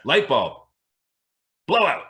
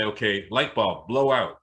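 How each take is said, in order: First: "blow out" pushed higher and louder; louder insistent command. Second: Said in the usual way. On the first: Retold or imitated. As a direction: demand it with force this time. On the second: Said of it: "I'd look up and I'd say".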